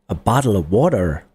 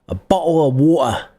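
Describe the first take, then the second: First: It is said in an American accent. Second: It is said in a Cockney accent. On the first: "That's U S" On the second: "If you're from London and you speak Cockney, you might say"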